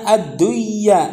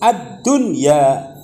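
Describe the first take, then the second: First: The n sound merges into the following y. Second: The n sound is pronounced clearly before y. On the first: The speaker calls it wrong. "itu salah" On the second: The speaker calls it right. "tapi harus ad-dunya"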